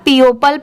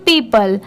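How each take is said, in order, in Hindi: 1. यह तीन अक्षरों में बोला जाता है, इसमें "o" की आवाज़ है। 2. यह दो अक्षरों में बोला जाता है, इसमें "o" की आवाज़ नहीं है। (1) "अगर आप पीओपल पढ़ेंगे तो ये रॉन्ग होगा" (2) "जब इसे साथ में मिला देंगे तो पीपल"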